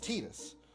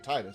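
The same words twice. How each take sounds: First: The first syllable does not sound like tide. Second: The first syllable sounds like the word tide. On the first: This is the official pronunciation. "But it's Tidus" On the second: This pronunciation follows the word tide. "I'm always going to say Tidus"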